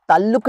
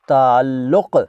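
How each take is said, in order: First: ताल्लुक़ ending on a plain k. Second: ताल्लुक़ ending on a deep back q. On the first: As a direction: say ताल्लुक़ with an ordinary क. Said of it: "ताल्लुक़ नहीं". (ताल्लुक़ में आखिर में साधारण क) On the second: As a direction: say ताल्लुक़ with a uvular क़. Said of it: "क, क है एंड में". (ताल्लुक़ के अंत में क़) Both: Shown as a demonstration.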